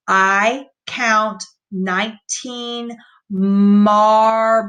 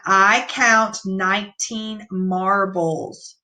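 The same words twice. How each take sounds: First: Slow, word-by-word reading, "marbles" drawn out; slow modeled sentence; slow read-aloud. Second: Calm slow reread. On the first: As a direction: read it slowly, stretching "marbles". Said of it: "So let's read this sentence". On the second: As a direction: read it once more, steady and slow. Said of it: "Let's read it one more time". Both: Shown as a demonstration.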